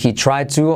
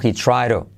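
First: The t of to is a clear, hard t. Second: The t of to is a soft flap.

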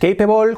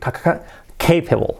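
First: The initial C is soft, not strongly pronounced. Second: The initial C is strong and forceful. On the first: The speaker calls it wrong. "no es capable" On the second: The speaker calls it right. "y la C fuerte"

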